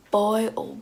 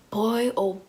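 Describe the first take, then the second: No difference in how they are said.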